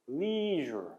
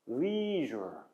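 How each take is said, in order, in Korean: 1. 장모음이고 부드러운 zh 소리가 납니다. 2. 장모음이고 부드러운 zh 소리가 납니다.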